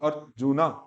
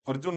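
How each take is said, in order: First: The word ends with a clear final vowel. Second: The word ends on the final consonant sound. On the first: The speaker calls it right. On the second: The speaker calls it wrong. "अर्जुन नहीं"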